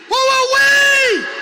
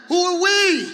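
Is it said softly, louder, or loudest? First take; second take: loudest; softly. First: It is said at the loudest level. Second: It is said at the softest level.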